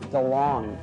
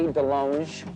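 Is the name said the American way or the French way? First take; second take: American; French. First: The name is said the everyday American way. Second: The name is said the French way. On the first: The speaker calls it wrong. "I am [name]" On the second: The speaker calls it right. "it should be DeLonge, because I went to France"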